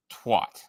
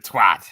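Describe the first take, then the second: First: "twat" with an open ah, rhyming with "hot"; "twat" with a broad ah vowel; American pronunciation. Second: "twat" with a short a, rhyming with "bat"; loud "twat", flat a as in "cat"; put-on English pronunciation. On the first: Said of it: "I think the Americans pronounce it". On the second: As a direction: punch out "twat" in a British way. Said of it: "I put on the accent when I say it". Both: Shown as a demonstration.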